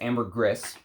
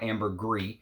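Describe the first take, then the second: First: The word ends with an S sound. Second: The word ends without an S sound. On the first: The speaker calls it right. "is the proper way to say it" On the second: The speaker calls it wrong. "It's not ambergris"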